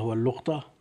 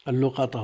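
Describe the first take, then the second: First: واللقطة as wal-luq-ta, no vowel after qaf; sukun on qaf. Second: اللقطة as al-lu-qa-ta, short "a" after qaf; fatha on qaf. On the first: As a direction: close the syllable in واللقطة: LUQ-ta. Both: Shown as a demonstration. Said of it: "بالفتح والسكون".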